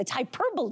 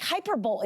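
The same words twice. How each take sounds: First: Hyperbole as hy-PER-buh-lee; correct hyperbole. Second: Hyperbole as HYPER-bowl; pitched-up, brisk HYPER-bowl; mispronounced hyperbole. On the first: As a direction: stress the second syllable of hyperbole, four syllables. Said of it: "sometimes I sound like hyperbole". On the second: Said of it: "sometimes I sound like". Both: Shown as a demonstration.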